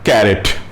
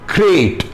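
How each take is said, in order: First: A vowel is inserted between the 'k' and 'r'. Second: The 'k' and 'r' are joined with no vowel. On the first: The speaker calls it wrong. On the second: The speaker calls it right.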